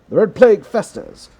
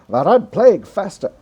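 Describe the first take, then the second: First: It is read in a mild English accent. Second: It is read in an American radio announcer accent. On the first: "I don't know if this is a good English accent" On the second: "that's my American radio voice"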